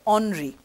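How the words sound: The name is said with French pronunciation. The speaker calls it right. "but in French, they pronounce this as Henri"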